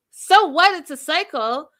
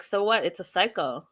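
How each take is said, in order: First: Incredulous. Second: Said in the usual way. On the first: Real, not acted. Echoing Lydia's words to viewers, high loud outraged disbelief. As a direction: echo "So what? It's a cycle?" much higher and louder, rising in disbelief. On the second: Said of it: "And Lydia's like".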